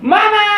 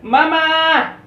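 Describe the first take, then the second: First: The word is screamed at full volume. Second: The word is called out fairly loudly. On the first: The child urgently needs attention. "berteriak, menjerit" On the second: The child needs more attention. "nangisnya agak keras ya"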